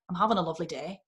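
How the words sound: The pitch goes up at the end. "we go up at the end"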